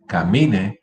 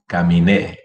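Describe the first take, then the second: First: Camine with a strong MI; stress on middle syllable. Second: Caminé with a loud final NÉ; stress on last syllable. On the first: Teacher repeating the drill, middle-syllable stress on Camine. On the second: Teacher repeating the drill, final stress on caminé. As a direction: punch the end of caminé. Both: Shown as a demonstration. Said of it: "the difference".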